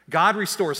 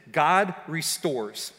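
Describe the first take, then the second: First: "God restores" repeated louder, "God" stressed; emphatic repeat. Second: God restores, slow and weighty; emphatic. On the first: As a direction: push the truth home. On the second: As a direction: plant each word slowly. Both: Acted.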